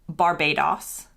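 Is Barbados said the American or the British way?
British. The final syllable has a British-sounding vowel. "In the U K, they call it"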